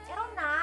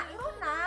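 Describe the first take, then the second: The two takes are said the same way.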